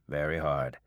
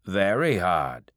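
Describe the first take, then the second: First: Said in the usual way. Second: "Very hard" said slow and louder, leaning on it; old farmer's heavy "Very hard"; emphatic. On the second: Acted. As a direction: press down on "Very hard" like a warning. Old man stresses the hardness.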